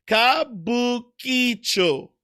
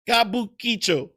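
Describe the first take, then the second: First: Kabukicho very slowly, every syllable clear; slow careful Kabukicho. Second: Kabukicho at normal speed, ki getting lost; quicker Kabukicho. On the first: For the viewer, Kabukicho said slow and careful. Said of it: "I can say it slow". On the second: Trying it faster, Kabukicho starts to lose its middle. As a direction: say Kabukicho quickly, let the ki slip. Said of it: "when I try to say it fast". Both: Shown as a demonstration.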